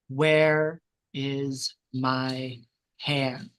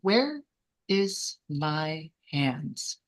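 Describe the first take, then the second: First: It is said louder and angrier. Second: It is said quietly and calmly.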